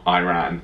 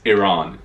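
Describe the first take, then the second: First: The first syllable sounds like 'eye', as in irate. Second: The first syllable sounds like 'ih', not 'eye'. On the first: The speaker calls it wrong. "It's not Iran. / It sounds like the word irate" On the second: The speaker calls it right. "it's Iran"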